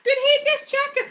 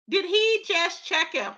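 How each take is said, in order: First: Much higher incredulous repeat; hammed-up gossip shock; scandalised. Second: Said in the usual way. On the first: Real, not acted. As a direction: squeal it in disbelief.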